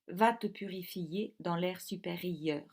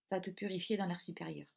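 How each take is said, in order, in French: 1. Les deux voyelles sont séparées en deux syllabes distinctes. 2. Les deux voyelles fusionnent en une seule syllabe. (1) "exige donc que l'on donne du rythme et lise ainsi" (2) "en français normal, je lirais"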